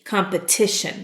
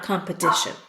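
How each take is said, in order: First: The middle consonant is a clear T sound. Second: The middle consonant sounds like a soft D. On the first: The speaker calls it right. "When the syllable gets to be accented, then I say the T" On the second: The speaker calls it wrong.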